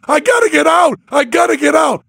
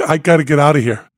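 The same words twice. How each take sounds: First: Much higher, screaming to be let out; mock terrified screaming to get out; retold nightmare scream, much higher; panicked scream. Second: Quick, urgent request at usual pitch; first ask to leave, fast; urgent but not yet screaming; urgent plea. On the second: Retold or imitated. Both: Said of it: "and I'm screaming".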